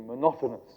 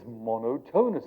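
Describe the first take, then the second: First: The middle syllable is reduced and unclear. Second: The middle syllable is said fully as tone. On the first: The speaker calls it wrong. "we just mispronounce it. We say monotonous" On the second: The speaker calls it right. "But it's monotonous"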